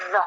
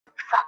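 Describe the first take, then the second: First: "the" with the voice added to the TH; voiced TH. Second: "th" as pure air, no voice; voiceless TH. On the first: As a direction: buzz the TH in "the". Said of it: "if you add your voice to it, it sounds like". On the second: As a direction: sound out "th" without voicing, as in think. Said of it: "if you add your voice to it". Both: Shown as a demonstration.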